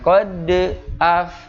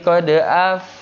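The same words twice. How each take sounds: First: The q bounces strongly before the next vowel. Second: The q bounces lightly, quickly joining the next vowel. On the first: The speaker calls it wrong. "Jangan kode af" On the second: The speaker calls it right. "tapi harus cepat menyiapkan huruf yang ada di depannya"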